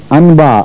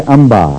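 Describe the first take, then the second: First: "انبا" with a distinct n before the b; wrong pronunciation. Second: "انبا" said as amba, n turned into m; nasal merge. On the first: Teacher showing the mistake, "انبا" with a plain n. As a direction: say "انبا" keeping a clear n sound. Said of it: "نہیں کہتے". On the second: Teacher correcting students, "انبا" with a merged m sound. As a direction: say "انبا" with the n hummed into an m. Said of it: "نون غنہ اور میم مل جاتے ہیں". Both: Shown as a demonstration.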